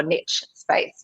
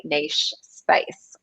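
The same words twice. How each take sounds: First: "niche" rhyming with rich; niche as "nitch". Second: "niche" pronounced French-style, rhyming with leash; niche as "neesh". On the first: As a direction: say "niche" as nitch, with a short i and tch. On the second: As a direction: say "niche" as neesh, with a long ee and soft sh. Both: Shown as a demonstration. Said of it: "depending on how you pronounce that".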